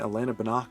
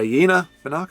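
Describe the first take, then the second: First: The first name is said with a plain L sound. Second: The first name's L is replaced by another sound.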